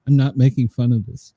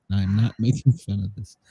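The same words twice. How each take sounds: First: Said in the usual way. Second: Softer repeat breaking into a laugh. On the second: Real, not acted. Repeating the denial to his co-host, laughing. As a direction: try to stay straight but laugh through it. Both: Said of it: "I repeat".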